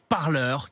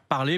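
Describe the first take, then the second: First: The word ends with an 'eur' sound. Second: The word ends with an 'ay' sound. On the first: It is the name of the American social network. "mais ça se prononce parleur" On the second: It is the ordinary French verb. "ça s'écrit comme le verbe parler"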